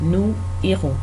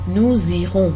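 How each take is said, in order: First: The words are said without a linking z sound. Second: A z sound links the two words together.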